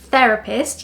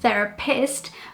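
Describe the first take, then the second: First: The stress falls where English normally puts it. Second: The stress falls where Portuguese terapeuta has it. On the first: The speaker calls it right. "learning where the correct stress is" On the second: The speaker calls it wrong.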